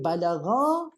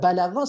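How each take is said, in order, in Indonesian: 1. Kata balagha diakhiri vokal panjang. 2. Kata balagha diakhiri vokal pendek. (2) "kalau balagha seorang lah"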